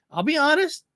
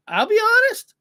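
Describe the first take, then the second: First: Said in the usual way. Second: I'll be honest, much higher and louder; emphatic repeat. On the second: Shown as a demonstration. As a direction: blurt honest out high and loud. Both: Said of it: "repeated for emphasis".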